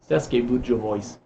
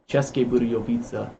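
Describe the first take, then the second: First: The name begins with a plain s sound. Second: The name begins with a ch sound. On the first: The speaker calls it wrong. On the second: The speaker calls it right.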